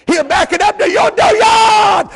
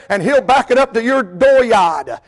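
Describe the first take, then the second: First: High, loud, slow shout; shouted dooryard, voice thrown high. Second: Said in the usual way. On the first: Real, not acted. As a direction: repeat it as a pulpit shout. Shouted repeat of line 7.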